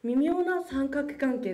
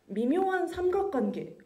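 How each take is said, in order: First: 微妙な三角関係 read in Japanese, as mimyō na sankaku kankei; Japanese pronunciation. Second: 微妙な三角関係 read in Korean, as bimyo-han samgak-gwangye; Korean pronunciation. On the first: Student revealing the quiz answer, read in Japanese. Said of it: "はい、正解です". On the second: Student quizzing the audience, reading the phrase in Korean. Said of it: "日本語で何だと思いますか". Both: Shown as a demonstration.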